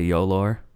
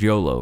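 First: The word ends with an added r sound. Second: The word ends on a plain vowel.

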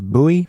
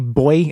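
First: It is said the American way, like boo-ee. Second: It is said the British way, like boy. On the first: "instead of buoy" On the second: "when they say boy"

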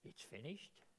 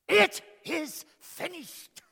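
First: It is said in a weary, defeated way. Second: It is said in a proud, triumphant way. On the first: The speaker is giving up in exhaustion. The speaker calls it wrong. "How did he say that?" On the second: The speaker has completed the mission. The speaker calls it right. "I think he said it like this: ... the overwhelming feeling of accomplishment, of fulfillment, of satisfaction"

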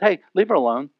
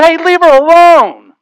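First: It is said calmly, without force. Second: It is said forcefully, like an exclamation.

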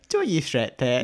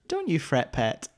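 First: The phrase is said in a strong regional accent. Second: The phrase is said in a fairly neutral accent.

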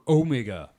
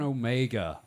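First: Omega is said imitating another character's pronunciation. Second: Omega is said in an ordinary everyday pronunciation.

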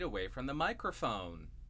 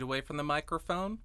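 First: The voice is recorded about four feet away. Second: The voice is recorded about two feet away. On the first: "and about 4 feet away from the microphone" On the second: "2 feet away from the microphone"

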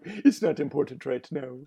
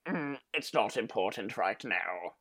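First: It is said in the speaker's ordinary voice. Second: It is said imitating Bakura's actual voice.

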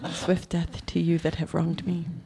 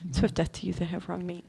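First: It is said at a slower pace. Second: It is said as fast as possible.

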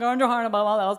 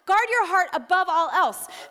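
First: It is said in a casual, dismissive way. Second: It is said in a serious, weighty way.

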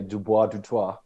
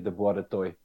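First: The name is said in a posh way. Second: The name is said with a South African accent.

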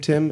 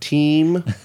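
First: The vowel is short, as in 'tin'. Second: The vowel is long, as in 'teen'. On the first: The speaker calls it right. "pronounce my name, Tim" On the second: The speaker calls it wrong. "and not Team"

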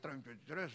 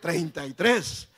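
First: It is said in a sad, gloomy way. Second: It is said in a happy, smiling way.

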